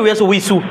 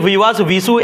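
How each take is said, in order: First: The waw letter is said as a 'w' sound. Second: The waw letter is said as a 'v' sound.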